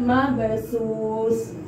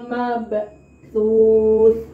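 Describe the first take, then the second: First: The middle consonant is an 's' sound. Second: The middle consonant is a 'th' sound. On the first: The speaker calls it wrong. "Bukan mabsus" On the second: The speaker calls it right. "karena hurufnya bukan sa, tapi ta"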